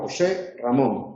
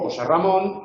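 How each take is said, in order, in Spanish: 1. Una pausa lo divide; ambos nombres llevan acento. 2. Se dice como un solo grupo, con acento solo en Ramón. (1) "No digo, ... Tengo que hacer una pausa para conservar el acento" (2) "el único acento que se conserva es Ramón. José pierde su acento"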